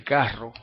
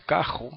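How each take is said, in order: First: "carro" with a rolled tongue-tip rr; standard trilled R. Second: "cajo", carro with a throaty j for rr; Puerto Rican R. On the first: Teacher contrasting with Puerto Rican speech, trilled R. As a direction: roll the rr in "carro". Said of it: "en vez de carro". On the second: Teacher showing R in mid-word, Puerto Rican velar R. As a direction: velar scrape in the middle of "cajo". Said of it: "decimos cajo". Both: Shown as a demonstration.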